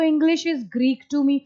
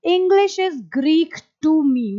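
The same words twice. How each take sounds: First: Spelled out slowly for the class; slow demonstration repeat; slow repeat of the model line. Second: Slow, careful teaching read; model sentence, slow. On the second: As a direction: say it slowly so students can repeat. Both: Shown as a demonstration. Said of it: "आप बोलेंगे".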